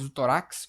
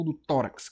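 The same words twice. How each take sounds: First: Tórax said to-RAX, wrongly; weight on the final RAX of tórax; tórax mis-stressed at its end; stress on last syllable. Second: Tórax as TÓ-rax; tórax with strong start and weak ending; stress on first syllable. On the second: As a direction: lean on TÓ in tórax. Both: Shown as a demonstration. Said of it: "eu falo do tórax".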